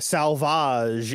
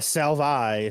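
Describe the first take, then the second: First: The J sound in the name is pronounced. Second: The J sound in the name is left out.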